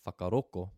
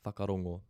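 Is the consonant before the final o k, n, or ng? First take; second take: k; ng. First: The last consonant is a k sound. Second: The last consonant is an ng sound.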